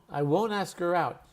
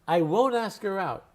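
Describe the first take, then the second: Both takes have the same delivery.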